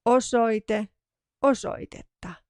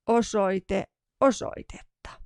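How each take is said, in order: Both takes have the same delivery.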